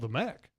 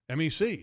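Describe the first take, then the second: First: The name is said as one word. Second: The name is spelled out letter by letter. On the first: "it's called the mech" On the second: "I've only heard M E C"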